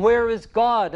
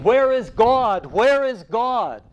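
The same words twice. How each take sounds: First: High and loud, calling again; crying out. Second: High, loud and slow, calling out twice; a madman crying out in the marketplace. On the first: Madman still calling to the mocking crowd. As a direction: keep crying out the question. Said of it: "And he kept crying". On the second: Madman calling out to the crowd, loud and desperate. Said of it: "And he was crying". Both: A narrator's reading.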